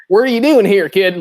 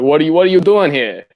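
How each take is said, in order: First: Loud, high Southie construction worker bark; mock Brooklyn-ish Boston accent, loud. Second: Put-on Boston accent. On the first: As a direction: heckle the kid like a Boston construction guy. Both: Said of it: "Massive Southie accent".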